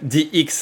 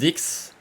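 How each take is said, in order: First: The name is spelled out as two letters. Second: The name is said as one whole word. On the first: The speaker calls it right. "I will say it uh, that way to not get a sh- shadow ban" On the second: The speaker calls it wrong. "I said the word uh, dick"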